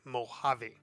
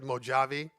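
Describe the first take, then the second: First: The J is silent, not an English J. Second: The J is sounded as an English J. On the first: The speaker calls it right. "the J is silent, so it's Mojave" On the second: The speaker calls it wrong. "I know a lot of people pronounce it Mojave"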